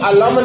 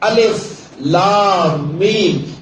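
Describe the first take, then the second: First: The letters are joined into one short word. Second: Each letter name is said separately. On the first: The speaker calls it wrong. "ये अलम नहीं है" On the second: The speaker calls it right. "इनको जोड़ नहीं रहे हम"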